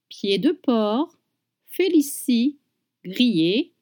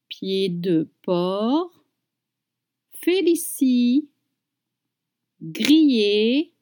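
First: It is said at natural speed. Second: It is said slowly and carefully.

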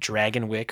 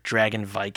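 First: The last syllable sounds like 'wick'. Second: The last syllable sounds like 'vike'. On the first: The speaker calls it wrong. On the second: The speaker calls it right.

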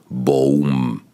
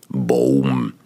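The two takes are said the same way.

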